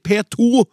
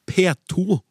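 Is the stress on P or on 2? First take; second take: 2; P. First: The stress is on the number two. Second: The stress is on the letter P. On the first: The speaker calls it right. "Jeg sier P2 selvfølgelig" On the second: The speaker calls it wrong. "med trykk på P og ikke på 2"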